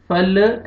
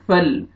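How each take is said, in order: First: फल with the l released into a small extra vowel, "falle"; bouncing lam. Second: फल closed on a steady l, no bounce after it; still lam. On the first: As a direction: wrongly bounce the final l of फल. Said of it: "ऐसे नहीं पढ़ना". (फल के लाम को हिलाकर) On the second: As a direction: hold the final l of फल still. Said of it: "लाम को आपने हिलाना नहीं है". (फल के लाम को बिना हिलाए) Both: Shown as a demonstration.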